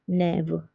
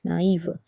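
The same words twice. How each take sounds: First: "naive" as one syllable, "nev"; wrong pronunciation. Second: "naïve" as "na-eev", two vowels apart; correct separated vowels. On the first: Teacher showing the word without accent, "naive" as "nev". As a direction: merge a and i into e in "naive". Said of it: "That's the wrong pronunciation". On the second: Teacher correcting the wrong form, "naïve" as "na-eev". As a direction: split a and i clearly in "naïve". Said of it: "so it's naïve". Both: Shown as a demonstration.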